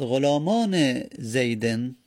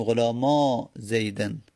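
First: "غلامان" slowly, pronounced gholamane with its nun; nun kept. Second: "غلاما" ending in a long open a; nun dropped. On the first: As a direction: say "غلامان" in full before "زیدن", sounding -ne. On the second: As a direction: run "غلاما" into "زیدن" with no nun between. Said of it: "نون رو باید حذف بکنیم". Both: Shown as a demonstration.

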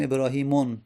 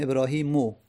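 First: ابراهیمون ending in "-on", with an audible n; wrong tanwin ending. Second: ابراهیمو ending in an open "o", ebrahimo; no tanwin. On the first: Teacher repeating the wrong form, ابراهیمون ending "-mon". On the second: Teacher correcting the form, ابراهیمو ending "-mo". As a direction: drop any n, leave ابراهیمو on its vowel. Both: Shown as a demonstration.

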